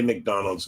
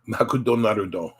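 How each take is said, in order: First: It is said with English sounds and clipped consonants. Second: It is said as Japanese syllables with added vowels. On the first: Japanese listeners will not understand it. The speaker calls it wrong. "if you say McDonald's, nobody's going to understand" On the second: Japanese listeners will understand it. The speaker calls it right. "It would be put into katakana and it's pronounced Makudonarudo"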